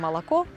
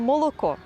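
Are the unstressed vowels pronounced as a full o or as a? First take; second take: a; full o. First: The unstressed vowels are reduced to an a sound. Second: The unstressed vowels keep a full, clear o sound. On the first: This is the Russian way. The speaker calls it wrong. "а не" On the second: This is the Ukrainian way. The speaker calls it right. "Ми маємо молоко"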